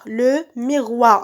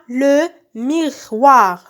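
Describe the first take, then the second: First: Said in the usual way. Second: Le miroir drawn out with gaps between syllables; slow sounding-out. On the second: Shown as a demonstration. Teacher naming the second picture for pupils, slow sounding-out. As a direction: stretch le miroir as LE, MI, ROIR.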